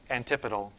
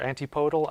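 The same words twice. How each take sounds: First: "antipodal" stressed on the TIP, as an-TIP-uh-dul; "antipodal" with a reduced, unstressed "po"; first pronunciation. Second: "antipodal" said as an-tee-POH-dul; "antipodal" with a full "anti" and long O; alternative pronunciation. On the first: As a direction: say "antipodal" as an-TIP-uh-dul, short middle vowels. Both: Shown as a demonstration. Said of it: "how you're supposed to pronounce this word".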